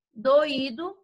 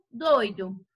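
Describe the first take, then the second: First: Doído as do-Í-do; stress on Í. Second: Doido as DOI-do; stress on DOI. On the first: Teacher contrasts lookalike words, stressing Í in Doído. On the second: Teacher contrasts lookalike words, stressing DOI in doido. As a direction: hit the first syllable of doido. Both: Shown as a demonstration. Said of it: "uma única escrita".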